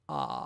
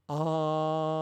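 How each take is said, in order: First: It is said with a creaky vocal fry. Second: It is said with lots of airflow.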